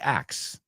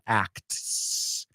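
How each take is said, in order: First: The T sound is dropped. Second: The T sound is clearly pronounced. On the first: The speaker calls it right. "So you say acts. Te comes la T" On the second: The speaker calls it wrong. "It's not acts"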